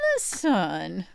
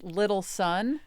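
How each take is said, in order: First: It is said in a put-on, doting pet voice. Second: It is said in an ordinary speaking voice. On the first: "but the way I say it is I go" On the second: "well, it's little son"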